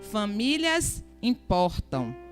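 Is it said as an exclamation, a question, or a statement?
statement. It is said as a flat statement.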